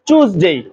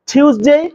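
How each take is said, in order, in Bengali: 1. শব্দটি ch ধ্বনি দিয়ে শুরু হয়। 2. শব্দটি t ধ্বনি দিয়ে শুরু হয়। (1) "কেউ বলে চুজডে" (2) "কেউ বলে টিউসডে"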